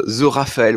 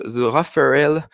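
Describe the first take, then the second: First: Said in the usual way. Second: The Raphaël said with an English accent; drawn-out English-accented The Raphaël. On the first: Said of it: "Pas besoin de faire l'accent anglais". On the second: Real, not acted. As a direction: put on English pronunciation for The Raphaël. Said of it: "mon accent anglais à chaque fois".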